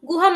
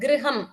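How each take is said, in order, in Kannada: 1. ಮೊದಲ ಅಕ್ಷರದಲ್ಲಿ ಸರಳ 'u' ಸ್ವರ ಇದೆ. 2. ಮೊದಲ ಅಕ್ಷರದಲ್ಲಿ ಸ್ವರ 'r' ಶಬ್ದ ಇದೆ. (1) "ಗುಹಂ ಅಲ್ಲ"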